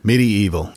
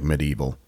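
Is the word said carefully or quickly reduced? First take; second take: carefully; quickly reduced. First: Every syllable is said carefully and fully. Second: It is said fast with syllables squeezed together. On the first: This is the technically correct form. "it is technically medieval" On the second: This is how most people say it. "since we say it so fast, it sounds like medieval"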